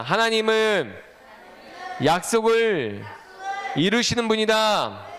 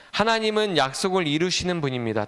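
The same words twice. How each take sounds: First: Slow, drawn-out phrases with pauses between; repeat-after-me call. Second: Said in the usual way. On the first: Shown as a demonstration. Preacher leading children to repeat the line, slow call-out. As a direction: call it out slowly for a group to echo. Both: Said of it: "따라해 봅시다".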